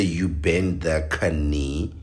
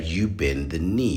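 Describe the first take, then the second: First: "knee" drawn out as kuh-NEE; mock mispronounced "knee", with an extra kuh; K pronounced in knee. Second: "knee" said as NEE, no K; silent K in knee. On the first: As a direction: sound the silent K in "knee", slowly. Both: Shown as a demonstration. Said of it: "You don't say".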